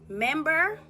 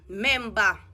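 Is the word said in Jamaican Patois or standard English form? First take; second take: standard English; Patois. First: It is said in a standard English form. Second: It is said in a Jamaican Patois form. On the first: "If we are go standard English now, English is member" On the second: "Jamaican alone say member"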